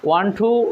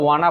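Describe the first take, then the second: First: It is said as two full separate words. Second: It is said as one reduced blended word. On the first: "ওয়ান টু এর বদলে" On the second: "আমরা ওয়ানা বলতে পারি"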